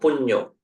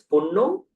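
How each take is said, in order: First: The middle consonant is an ny sound. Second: The middle consonant is a plain n sound. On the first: The speaker calls it right. "do you pronounce it as punno or punyo?" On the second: The speaker calls it wrong. "do you pronounce it as punno or punyo?"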